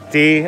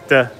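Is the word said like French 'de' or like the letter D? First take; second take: letter D; French de. First: It sounds like the English letter name D. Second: It sounds like French de, with a short vowel. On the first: The speaker calls it wrong. "I know it's not D" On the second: The speaker calls it right. "it's de"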